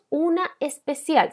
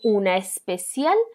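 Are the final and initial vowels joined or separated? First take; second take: separated; joined. First: The two meeting vowels are said separately. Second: The two meeting vowels are joined together. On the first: The speaker calls it wrong. "nosotros no decimos una especial" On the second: The speaker calls it right. "decimos una especial tensión. Se une"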